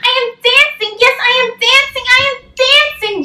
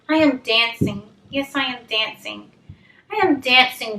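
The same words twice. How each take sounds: First: It is read in an excited, proud voice. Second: It is read in a plain, flat voice.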